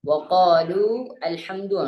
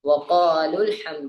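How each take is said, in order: First: The words are split with a separate al-sound. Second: The words run together with no separate a-sound.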